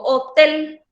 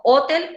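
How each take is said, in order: First: "hotel" stressed on the last syllable, ho-TEL. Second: "hotel" stressed on the first syllable, HO-tel. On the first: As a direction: lean hard on the TEL in "hotel". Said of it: "se carga la voz en la última sílaba". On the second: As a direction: punch the HO in "hotel". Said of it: "dónde se carga la voz". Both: Shown as a demonstration.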